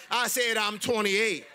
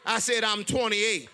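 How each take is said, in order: Both takes have the same delivery.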